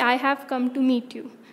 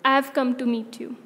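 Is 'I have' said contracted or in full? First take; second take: full; contracted. First: "I have" is said as two full words. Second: "I have" is shortened quickly to "I've". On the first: "A sentence with this would be" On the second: "it would become, ... So, you say it quickly"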